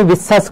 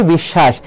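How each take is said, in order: First: বিশ্বাস said as "bissas", with a dental s; s-sound mispronunciation. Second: বিশ্বাস said as "bishshash", with doubled sh; usual sh pronunciation. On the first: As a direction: demonstrate বিশ্বাস wrongly with a hissed s, not sh. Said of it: "উচ্চারণটা স এর মতো হয়". (বিশ্বাস, দন্ত স দিয়ে "বিস্সাস" উচ্চারণ) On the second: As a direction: show the correct sh sounds in বিশ্বাস. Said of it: "আমরা সাধারণত বলি বিশ্বাস". (বিশ্বাস, তালব্য শ দিয়ে "বিশ্শাশ" উচ্চারণ) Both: Shown as a demonstration.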